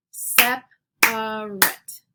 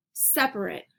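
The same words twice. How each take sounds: First: SEP, A, RATE, slow and loud beats; clapped syllables. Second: Said in the usual way. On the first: Shown as a demonstration. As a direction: punch each syllable of "separate" with long gaps. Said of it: "clap out the word parts". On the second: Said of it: "I'll say the word".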